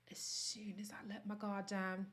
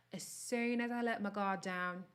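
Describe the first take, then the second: First: Soft, confiding whisper; whispered first take of the line. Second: Said in the usual way. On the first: Shown as a demonstration. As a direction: drop to a whisper for the vulnerable part. Whispered, then repeated aloud.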